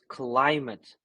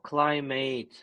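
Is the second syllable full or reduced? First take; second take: reduced; full. First: The second syllable is unstressed and reduced. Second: The second syllable is full, like mate. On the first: The speaker calls it right. "it doesn't get a stress... reduction" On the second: The speaker calls it wrong. "it's not climate. Mate means friend"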